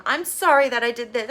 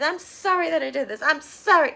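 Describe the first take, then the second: First: Mock whiny apology. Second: Much higher, whinier sorry; mock childish whimper. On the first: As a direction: imitate a childish sorry. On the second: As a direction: whine it like a sulking kid. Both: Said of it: "So childish".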